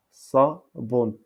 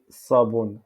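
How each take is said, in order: First: "Sabon" split as sa... bon; syllabes séparées. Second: Said in the usual way. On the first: Shown as a demonstration. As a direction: pause between the two syllables of "Sabon". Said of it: "on dit sabon". (« Sabon » découpé en sa... bon) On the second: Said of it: "en darija".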